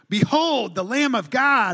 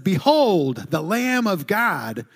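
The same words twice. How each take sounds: First: It is said with strong energy and passion. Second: It is said calmly, with little energy.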